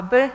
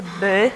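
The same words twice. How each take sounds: First: Said in the usual way. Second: "by" with the y held long and loud; drawn-out vowel. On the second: Shown as a demonstration. Lecturer showing which sound can be lengthened, "by" with long y. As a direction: stretch the vowel at the end of "by". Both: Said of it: "nie ulegnie przedłużeniu".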